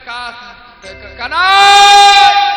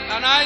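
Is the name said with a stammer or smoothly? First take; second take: stammer; smoothly. First: The name is stammered with repeated first syllables. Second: The name is said smoothly without repetition.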